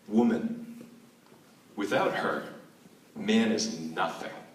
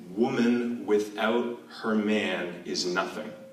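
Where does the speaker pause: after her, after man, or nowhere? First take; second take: after her; nowhere. First: It pauses after woman and after her. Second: It is said flat, with no phrasing pauses. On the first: Man is nothing without woman. "That's the first" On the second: The meaning is unclear. "I'm going to try not to punctuate it with my voice"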